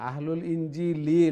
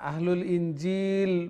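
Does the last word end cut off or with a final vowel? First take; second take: final vowel; cut off. First: The last word ends with a short i vowel. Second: The last word ends abruptly without a vowel. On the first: The speaker calls it right. "লামের নিচে তো জের আছে।" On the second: The speaker calls it wrong. "আহলুল ইনজিল বলে সাকিন করছেন, সাকিন করে আবার চলে গেলে হবে না।"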